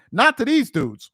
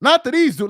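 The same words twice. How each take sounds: First: Said in the usual way. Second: "Not" hit harder, louder second time; stress on not. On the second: Real, not acted. Podcaster repeating his point, punching "Not". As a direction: lean on "Not" in "Not to these dudes".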